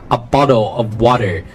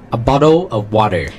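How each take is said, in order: No difference in how they are said.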